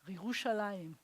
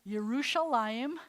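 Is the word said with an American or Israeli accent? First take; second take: Israeli; American. First: It is said with an Israeli accent. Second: It is said with an American accent. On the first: The speaker calls it right. "I say Yerushalayim. And then I sound like I'm Israeli" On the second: The speaker calls it wrong. "I don't say Yerushalayim"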